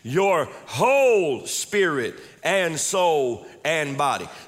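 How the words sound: The word whole is emphasized.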